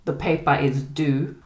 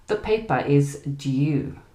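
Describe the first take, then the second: First: American "due" with a simple oo; "due" with no y sound; American pronunciation. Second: British "due" with a you sound; "due" with a y glide after the d; British pronunciation. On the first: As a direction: say "due" as DOO. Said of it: "they would use the oo sound". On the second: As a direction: say "due" slowly as DYOO. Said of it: "we would use the U sound". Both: Shown as a demonstration.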